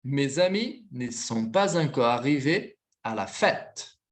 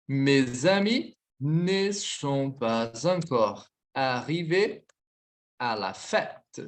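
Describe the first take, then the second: First: Said in the usual way. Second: Very slow, paused between phrases; measured dictation with long pauses. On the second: Shown as a demonstration. Slow repeat of dictated sentence.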